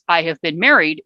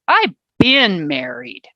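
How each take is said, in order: First: The word 'been' is not stressed. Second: The word 'been' is strongly stressed.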